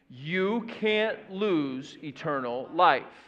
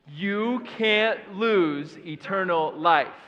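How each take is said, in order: First: It is said in a plain, ordinary voice. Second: It is said louder, with more force. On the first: "Can you say it with me?" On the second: "with a little bit more authority"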